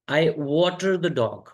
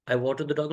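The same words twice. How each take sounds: First: Very slow and deliberate; slow model take. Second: Said in the usual way. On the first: Shown as a demonstration. Teacher introduces a new phrase, very slow. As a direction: let each word land for the class. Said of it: "I water the dog मतलब". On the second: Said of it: "मतलब कुत्ते को पानी पिलाना".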